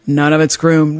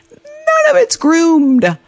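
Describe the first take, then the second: First: Said in the usual way. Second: GROOMED stretched out slowly, pitched high; drawn-out dismay. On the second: Retold or imitated. Skier realizes the slope is ungroomed, drawn-out dismay. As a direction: stretch "none of it's groomed" high and slow. Dismayed discovery in ski story.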